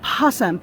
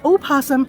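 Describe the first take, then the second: First: The word begins directly with the p sound. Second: The word begins with an extra vowel sound. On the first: The speaker calls it wrong. "not possum" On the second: The speaker calls it right. "actually the correct pronunciation is opossum"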